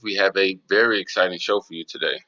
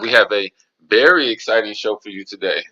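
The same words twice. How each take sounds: First: It is said flatly, without excitement. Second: It is said with lively excitement. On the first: The speaker calls it wrong. "you don't sound that excited" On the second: The speaker calls it right. "There we go"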